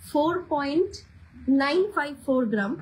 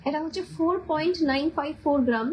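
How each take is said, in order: First: "four point" rising, a pause, then "nine five four gram"; slow, chunked repeat. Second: Said in the usual way. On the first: Shown as a demonstration. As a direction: repeat the weight slowly so viewers can note it. (ধীরে ধীরে, থেমে থেমে ওজন বলা) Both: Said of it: "সেই জন্য আমি আস্তে আস্তে বলছি".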